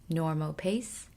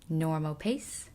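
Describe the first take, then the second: The two takes are said the same way.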